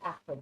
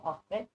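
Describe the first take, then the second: First: Astrid with a short A as in cat; English pronunciation. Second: Norwegian accent. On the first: Reader guessing the usual English form, Astrid with short A. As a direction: say Astrid as ASS-trud, English style. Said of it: "It's probably Astrid". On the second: Reader correcting to her own form of Astrid, Norwegian accent. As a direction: say Astrid as AHS-trid, the Norwegian way. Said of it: "but we say Astrid". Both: Shown as a demonstration.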